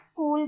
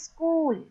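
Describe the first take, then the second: First: It starts directly with the s sound. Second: An extra vowel comes before school, U P style.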